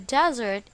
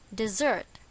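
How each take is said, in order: First: The stress is on the first syllable. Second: The stress is on the second syllable. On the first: It names a dry, sandy place. "On the first syllable" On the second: It names a sweet course after a meal. "On the second syllable"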